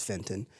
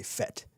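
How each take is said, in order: First: "fenton" with the n sounded before the t; FEN-tun for "fenton"; corrected pronunciation. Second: "fet" with no n before the t; short "fet" for the start of fentanyl; habitual mispronunciation. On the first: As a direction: say "fenton", keeping the first n. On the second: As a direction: say "fet", leaving out the n. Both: Shown as a demonstration. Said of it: "I always say fet".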